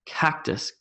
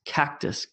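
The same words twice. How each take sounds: The two takes are said the same way.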